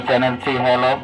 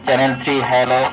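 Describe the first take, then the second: No difference in how they are said.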